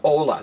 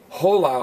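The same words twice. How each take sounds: First: The word begins with no H sound. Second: The word begins with an audible H sound. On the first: The speaker calls it right. "The H is silent" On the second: The speaker calls it wrong. "You don't want to say hola"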